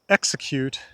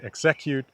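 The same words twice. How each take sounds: First: The stress is on the first syllable. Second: The stress is on a later syllable. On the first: The speaker calls it right. "the stress is on X" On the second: The speaker calls it wrong. "If we stress ek, we say execute, and that's not the word"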